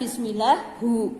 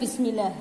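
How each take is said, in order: First: The word ends with a u vowel. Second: The word ends with no final vowel. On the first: "Bukan bismillahu ya, hi" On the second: "bukan Bismillah"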